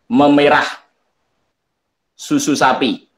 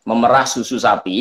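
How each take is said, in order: First: Memerah is pronounced as the word for reddening. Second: Memerah is pronounced as the word for milking. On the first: Cow's milk is turning red. The speaker calls it wrong. "salah baca" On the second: Someone is milking a cow. The speaker calls it right. "dia sedang memerah sapi"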